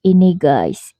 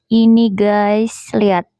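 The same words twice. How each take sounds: First: Said in the usual way. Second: Slow, stretched presenter voice; drawn-out showing off. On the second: Shown as a demonstration. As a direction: draw it out, showing something off. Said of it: "udah deh lebaynya".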